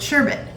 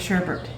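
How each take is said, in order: First: The second syllable has no R sound. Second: The second syllable has an added R sound. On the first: "There's no R, so I've always said sherbet" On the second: "but I hear people say sherbet"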